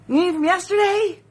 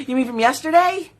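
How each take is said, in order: First: YESTERDAY asked much higher, incredulous; mock disbelief at yesterday. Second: Said in the usual way. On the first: Shown as a demonstration. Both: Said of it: "repeated with bigger pitch".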